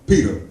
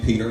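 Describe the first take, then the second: First: The name ends like 'peta' without an r. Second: The name ends like 'Peter' with an r.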